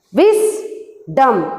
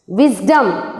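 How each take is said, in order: First: "Wisdom" in two beats, a clear pause after Wis; split into syllables. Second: Said in the usual way. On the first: Shown as a demonstration. Teacher showing the class two syllables, "Wisdom" split Wis-dom. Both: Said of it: "We can divide these words into two".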